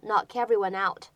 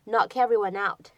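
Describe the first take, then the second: First: The words are linked smoothly into one. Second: The same.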